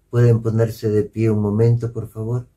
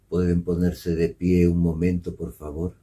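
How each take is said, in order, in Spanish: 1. La petición suena cálida, ligera y acogedora. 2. La petición suena pesada, plana y desalentadora. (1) "la voz de sí" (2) "la voz de no"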